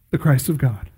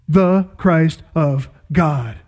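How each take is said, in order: First: Said in the usual way. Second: Slow, each word weighed; emphatic repeat. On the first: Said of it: "he answered simply". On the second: Shown as a demonstration. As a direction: savor every word, slowly. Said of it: "That is exactly the right answer".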